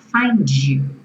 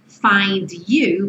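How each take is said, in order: First: The D and Y merge into a J sound. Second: The D and the Y stay separate.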